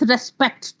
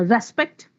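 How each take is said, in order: First: "respect" as a verb, SPECT stressed; re-SPECT, weight on the end of "respect"; stress on second syllable. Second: "respect" with RES stressed; RES-pect, weight on the start of "respect"; stress on first syllable. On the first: Teacher shifting stress to make a verb, second-syllable stress. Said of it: "Now just shift the syllable". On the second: Teacher giving noun examples, first-syllable stress. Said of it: "If the stress is on the first syllable". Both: Shown as a demonstration.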